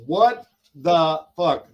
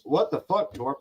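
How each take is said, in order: First: All-caps yell. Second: Said in the usual way. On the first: Retold or imitated. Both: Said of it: "that was in caps".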